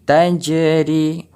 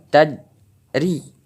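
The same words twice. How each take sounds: First: "tajri" with a clear echo on the j; bounced jim. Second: "tadri" with a flat d in place of a bounced j; wrong way, no bounce. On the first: Teacher showing the right reading, bounced jim. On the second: Teacher showing the wrong reading, flat letter. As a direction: say "tadri" with no echo. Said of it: "bukan tadri". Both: Shown as a demonstration.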